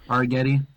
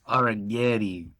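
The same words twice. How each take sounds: First: The name is said in a plain accent. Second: The name is said in an exaggerated Italian accent. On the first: "Am I saying that right?"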